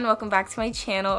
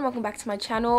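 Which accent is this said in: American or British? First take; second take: American; British. First: It is said in an American accent. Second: It is said in a British accent. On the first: "So this is my American accent" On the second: "I just wanted to do a British accent for my intro"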